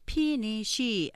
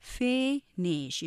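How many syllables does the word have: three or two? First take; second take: three; two. First: The word is said in three syllables. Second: The word is said in two syllables. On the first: The speaker calls it wrong. "3음절로 발음하기 쉽지만" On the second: The speaker calls it right. "이 음절로 하면서 앞에 액센트 강조, finish 이렇게 강약으로"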